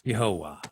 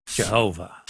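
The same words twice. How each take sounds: First: "Yehovah" starting with a Y sound, said lower; Hebrew pronunciation. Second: "Jehovah" starting with an English J, said lower; English pronunciation. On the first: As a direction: say "Yehovah" in three syllables, Y not J. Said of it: "would have been pronounced". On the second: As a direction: say "Jehovah" with J as in John. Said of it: "how do we pronounce the name". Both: Shown as a demonstration.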